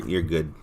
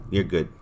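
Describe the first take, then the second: No difference in how they are said.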